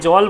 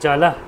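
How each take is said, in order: First: The word ends on the consonant with no vowel. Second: A vowel is sounded after the final consonant. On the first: The speaker calls it wrong. "জলকে জল বলা যাবে না" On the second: The speaker calls it right. "বলবো জলা"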